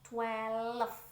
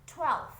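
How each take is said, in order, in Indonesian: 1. Kata ini terbagi menjadi dua suku kata. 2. Kata ini diucapkan sebagai satu suku kata. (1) "salahnya tuh biasanya karena dibaca twelve" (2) "Satu suku kata"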